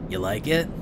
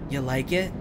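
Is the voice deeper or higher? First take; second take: deeper; higher. First: It is said in a deeper voice. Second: It is said in a higher voice. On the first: The speaker calls it wrong. "The deeper voice was for the fungus man" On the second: The speaker calls it right. "I was doing the voice a little bit of a higher octave"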